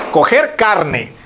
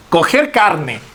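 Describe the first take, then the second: First: Coger carne said very slowly, word by word; slowed phrase. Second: Said in the usual way. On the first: Shown as a demonstration. Teacher slowly repeats the phrase to students, drawn out. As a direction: draw out Coger carne for the class.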